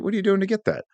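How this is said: It is asked in a gentle, non-judgmental tone.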